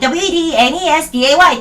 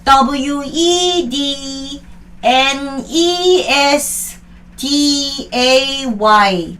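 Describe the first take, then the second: First: The letters are spelled out fast and rhythmically. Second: The letters are spelled out slowly, without rhythm. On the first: This way the spelling sticks automatically. The speaker calls it right. "리드미컬하게 박자를 끊어서 빠른 속도로 외워야 돼요" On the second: This way the spelling will never stick. The speaker calls it wrong. "만약에 이렇게 되면 이 스펠링은 못 외워요"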